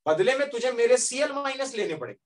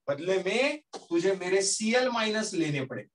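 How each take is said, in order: First: Pitched higher, pressing the demand on मेरे; emphatic first take. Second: Said in the usual way. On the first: Acted. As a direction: lean hard into मेरे CL minus, then let it fall. Plasma's terms, said twice.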